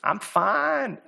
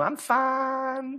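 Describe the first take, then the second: First: Said in the usual way. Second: High, Southern-drawled FINE, closer to "fahn"; playful Southern-accent imitation. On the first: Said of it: "What do we always say". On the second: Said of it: "said it with the Southern accent".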